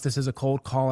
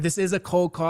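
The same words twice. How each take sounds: First: It is said flatly, without enthusiasm. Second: It is said with enthusiasm and playfulness. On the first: The listener hangs up. The speaker calls it wrong. "You're going to click, right?" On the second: The listener is more likely to keep listening. The speaker calls it right. "a little bit more enthusiasm and like that more playfulness"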